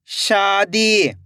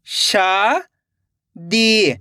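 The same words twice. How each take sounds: First: Said in the usual way. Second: Slow blended reading. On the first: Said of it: "तो मिलके बन जाएगा". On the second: Shown as a demonstration. Teacher showing pupils how शादी blends, drawn slowly. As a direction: drag शादी out very slowly, the ई long. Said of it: "एक बार फिर से देखिए".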